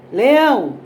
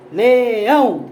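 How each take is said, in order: First: Said in the usual way. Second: "leão" drawn into two beats, le-ÃO; syllable by syllable. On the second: Shown as a demonstration. Teacher showing the tonic syllable of "leão", ÃO stressed in separate beats. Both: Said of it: "Pode ser falando ou batendo palma".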